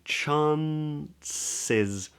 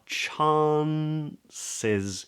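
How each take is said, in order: First: It is said in an American accent. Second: It is said in a Southern British accent.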